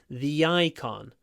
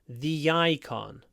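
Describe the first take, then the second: Both takes have the same delivery.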